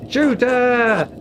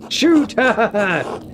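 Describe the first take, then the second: First: Louder, higher shout through a laugh; laughing mock shout. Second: Louder, higher shouted command; mock shouted order. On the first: Streamer repeating the joke order while laughing. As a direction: shout it again, cracking up. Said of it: "repeat while laughing". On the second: Streamer jokingly shouting an order at the screen. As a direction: bark the order out. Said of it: "mock command in game".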